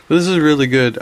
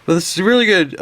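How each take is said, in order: First: Said in the usual way. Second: Words stretched by a yawn. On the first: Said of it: "no, excuse me". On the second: Real, not acted. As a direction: talk through a rising yawn. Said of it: "I'm trying to yawn".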